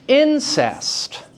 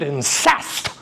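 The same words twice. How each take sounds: First: The stress is on the first syllable. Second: The stress is on the second syllable. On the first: This is the word's ordinary spoken form. "Incest is the natural pronunciation of the word" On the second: This follows the verse's meter instead of natural speech. "you very well could do a couch for luxury and damned incest"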